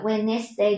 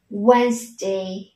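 First: "Wednesday" in three syllables, wen-nes-day; wrong pronunciation. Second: "Wednesday" in two syllables, wenz-day; correct pronunciation. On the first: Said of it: "Không đọc là Wednesday". (đọc sai "Wednesday" có thêm "nét") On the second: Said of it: "chúng ta sẽ đọc là". (đọc "Wednesday" hai âm tiết, "oenz-đây") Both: Shown as a demonstration.

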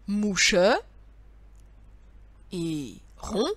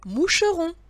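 First: "Mouche", a long pause, then "et rond"; "Mouche... et... rond", slowly pieced out with pauses; pieces said separately. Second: "moucheron" in one unbroken, higher-pitched run; "moucheron" joined up with no pause, pitched up; pieces joined together. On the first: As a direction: set "Mouche" and "rond" apart as two pieces. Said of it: "tu le colles à ce dernier morceau". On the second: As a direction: announce "moucheron" as one whole word, lifted. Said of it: "ça fait". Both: Shown as a demonstration.

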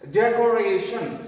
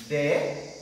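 First: Said in the usual way. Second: DECORATION broken into de, co, ra, tion with long pauses; split into syllables. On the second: Shown as a demonstration. Teacher counting syllables for the class, DECORATION split syllable by syllable. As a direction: say DECORATION one syllable at a time, pausing between. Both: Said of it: "four syllable it consists".

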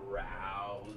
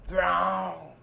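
First: Low and soft brown; low quiet answer. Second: Proud, loud colour call; loud answer. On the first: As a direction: drop the voice down low. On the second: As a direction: call out brown louder. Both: Pretend. Kid repeats the colour answer.

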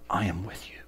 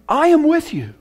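First: Hushed, tender whisper. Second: High, ringing declaration; proclaimed. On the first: God whispering to the sinner, hushed. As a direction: breathe the promise like a secret. God's promise to the rat. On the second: Preacher declaring God's words to believers, high and ringing. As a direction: announce the promise to the whole hall. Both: Acted.

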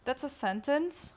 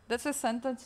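First: "That's a sentence?" with pitch rising at the end; questioning rise. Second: Said in the usual way. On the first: Real, not acted. Queries, then states the same words.

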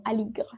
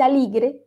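First: "aligre" softly ending on GR, E dropped; muted final E. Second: "aligre" wrongly ending in a Spanish "gre"; sounded final E. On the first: Teacher corrects to the French form, final E muted. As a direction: say "aligre" with no vowel sounded after GR. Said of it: "sino aligre". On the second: Teacher shows students what not to say, final E voiced. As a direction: say "aligre" with a full E at the end. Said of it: "no se dice aligre". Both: Shown as a demonstration.

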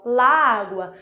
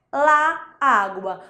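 First: "la água" emendado numa palavra só; palavras emendadas. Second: Said in the usual way. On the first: Shown as a demonstration. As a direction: junte os dois A de "la água", sem pausa entre eles. ("la água" com as vogais coladas) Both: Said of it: "é uma palavra só".

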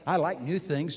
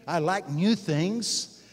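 First: Said in the usual way. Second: "new" drawn out and lifted, slow and louder; slow emphatic repeat. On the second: Shown as a demonstration. Preacher repeats to the congregation, slowly leaning on "new". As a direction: lean into "new" with a rising lift. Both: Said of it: "repeats the line".

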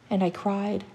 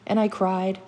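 Both takes have the same delivery.

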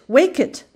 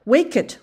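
First: Louder, higher Wake it! rising at the end; urgent call, louder. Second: Urgent call. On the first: Child calling again, higher and louder to wake the goat. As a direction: push the second Wake it! harder. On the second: Repeated urging. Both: A narrator's reading.

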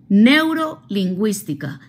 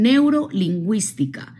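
First: Neurolingüística said slowly, every syllable clear, falling at the end; slow spelled-out term. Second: Said in the usual way. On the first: Shown as a demonstration.

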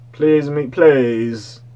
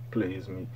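First: Pleading call. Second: Soft plea. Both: Real, not acted. Begging [name] not to flop.

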